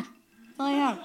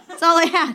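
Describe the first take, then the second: First: Softer, a giggly aside; laughing as a sheepish echo. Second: Blurts it out through a laugh, louder; laughing proudly at the joke. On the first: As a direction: repeat it quietly, still laughing. Repeats it, softer, still laughing. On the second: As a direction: laugh it out loud at your own punchline. Punchline repeated through laughter. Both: Real, not acted.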